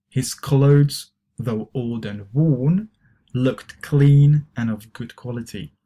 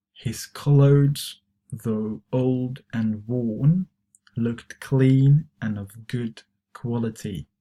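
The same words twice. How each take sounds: First: Model reading. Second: Slower model reading. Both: Shown as a demonstration. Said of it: "try to pronounce these expressions".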